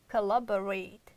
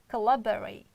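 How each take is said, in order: First: The unstressed vowels are reduced to schwa. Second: The unstressed vowels are reduced to schwa.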